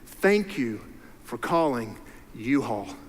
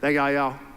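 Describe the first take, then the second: First: It is said slowly and clearly. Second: It is said fast and slurred together.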